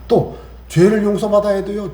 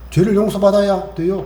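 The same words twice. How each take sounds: First: 죄를 hit hard, whole line slow; stress on 죄를. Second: 용서받아야 punched, whole line slow; stress on 용서받아야. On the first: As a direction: lean on 죄를, drawn out. (죄를에 힘주어 천천히) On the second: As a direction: lean on 용서받아야 slowly. (용서받아야에 힘주어 천천히) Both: Shown as a demonstration.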